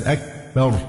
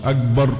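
First: أكبر broken by an airy, unvoiced k; voiceless kaf. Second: أكبر with k turned into g, agbar; voiced kaf error. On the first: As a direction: release the k of أكبر with breath. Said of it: "همس". (كاف مهموسة في «أكبر») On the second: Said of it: "مش أكبر". (كاف «أكبر» مجهورة كالجيم) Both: Shown as a demonstration.

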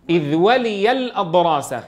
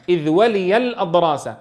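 No difference in how they are said.

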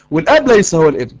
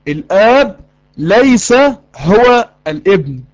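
First: Said in the usual way. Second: الآب ليس, pause, هو الابن very slowly, each word weighted; very slow, pausing emphasis on ليس and هو; slow emphatic repeat. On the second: Shown as a demonstration. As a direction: spell it out word by word for the class.

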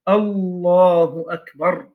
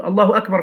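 First: «الله أكبر» slow, with «الله» drawn out long; spoken-out takbir. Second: Said in the usual way. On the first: Shown as a demonstration. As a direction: pronounce «الله أكبر» slowly and deliberately. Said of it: "بالنطق بها أن يقول". (تكبير منطوق ببطء مع مدّ «الله») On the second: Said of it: "في نفسه".

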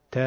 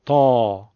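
First: ت as a thin front "te"; a light "te", no throat fullness; light plain te. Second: تا louder, lower, thick and full; heavy ta. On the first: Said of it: "حرف ت دو نقطه بگید". (تِ دو نقطه، نازک) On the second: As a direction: fill the throat on a strong, deep تا. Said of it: "صداتون رو درشت کنین". (تا بلند، درشت و مفخم) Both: Shown as a demonstration.

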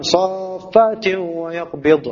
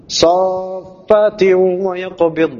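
First: Saffati wa yaqbid read very slowly, nun dropped; wrong recitation. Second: Saffati wa yaqbid chanted very slowly with the nun sounded; correct recitation. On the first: Teacher imitating students who drop the nun. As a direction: show the reading with the nun missing. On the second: Teacher reciting Al-Mulk for his students. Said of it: "Nunnya juga harus ada". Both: Shown as a demonstration.

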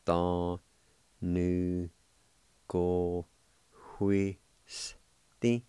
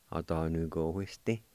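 First: Very slow, drawn-out Cherokee word Atanugohuisti; slow syllable by syllable. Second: Said in the usual way. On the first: Shown as a demonstration. Teacher demonstrating Atanugohuisti to students, very slowly. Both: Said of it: "it's pronounced like this".

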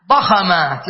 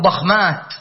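First: ضخمات as ḍa-kha-māt, short a after kh; mistaken middle vowel. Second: ضخمات as ḍakh-māt, no vowel after kh; correct unvowelled middle. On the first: Teacher voices the tempting wrong plural, ضخمات as ḍa-kha-māt. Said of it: "لكن لا". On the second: Teacher corrects the plural, ضخمات as ḍakh-māt. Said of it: "نقول ضخمات". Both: Shown as a demonstration.

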